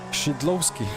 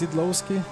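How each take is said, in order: First: The name begins with an sh-like sound. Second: The name begins with a plain s sound.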